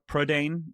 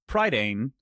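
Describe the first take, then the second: First: It is said with a native Welsh pronunciation. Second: It is said with an anglicized pronunciation.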